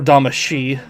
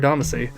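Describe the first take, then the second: First: The last syllable is said like 'shee'. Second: The last syllable is said like 'see'. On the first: This is how some other people prefer to say it. "for certain people that like to pronounce it that way" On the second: This is the speaker's own usual way of saying it. "I've always called it Damacy"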